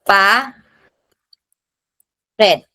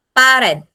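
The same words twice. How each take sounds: First: "pa, red" as two syllables with a long pause between; "pa, red" in isolated beats. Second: Said in the usual way. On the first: Shown as a demonstration. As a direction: break the word into "pa", wait, then "red". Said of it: "last syllable natin ay yung red". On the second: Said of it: "yung red ang mataas".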